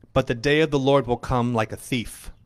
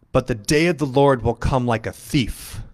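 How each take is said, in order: The two takes are said the same way.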